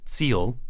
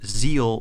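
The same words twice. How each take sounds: First: The word begins with a hard ts sound. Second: The word begins with a soft z sound. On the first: The speaker calls it right. "It's with a hard Z sound, so it's more like Ziel" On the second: The speaker calls it wrong. "that's not actually how you pronounce that German word"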